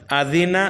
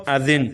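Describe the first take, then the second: First: آذینہ with final "-na" sounded; unstopped form. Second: آذین stopped on a bare n; pausal form. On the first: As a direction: end آذینہ on an open "a". (آذینہ کے نون پر زبر پڑھیں) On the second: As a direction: drop the last vowel of آذین. (آذین کے نون کو ساکن کر کے رکیں) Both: Shown as a demonstration. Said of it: "آگے وقف".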